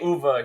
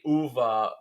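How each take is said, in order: First: The name is said the American way. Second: The name is said the Italian way. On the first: "they say uva here" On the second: "They say uva in Italy"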